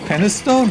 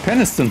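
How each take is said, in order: First: The last syllable sounds like the word stone. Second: The last syllable is a weak, short 'stun'.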